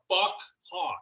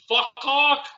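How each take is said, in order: First: The two parts are said as separate words. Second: The two parts run together as one word. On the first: "or two?" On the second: "Is that one word"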